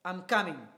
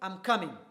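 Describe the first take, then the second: First: The voice stays flat and firm. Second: The same.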